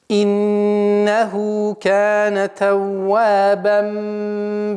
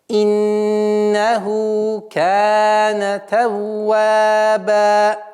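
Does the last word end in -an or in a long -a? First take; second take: -an; long a. First: The last word ends in -an, joined to the next. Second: The last word ends in a long a sound. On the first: The verse is joined to the following words. "Это для слитного чтения" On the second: The reciter stops at the end of the verse. "А в данном случае она аннулируется при остановке"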